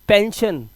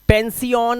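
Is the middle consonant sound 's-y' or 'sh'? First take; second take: sh; s-y. First: The middle sounds like a single 'sh'. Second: The middle sounds like 's' followed by 'y'. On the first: The speaker calls it right. "आ की आवाज" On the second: The speaker calls it wrong. "पेंसियन नहीं"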